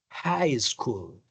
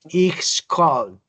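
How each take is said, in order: First: The starting h sound is clearly heard. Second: The starting h sound is silent. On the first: The speaker calls it right. "esta H aquí sí suena y dice high" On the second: The speaker calls it wrong. "usted dice, ich soll"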